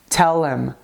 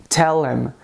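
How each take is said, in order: The two takes are said the same way.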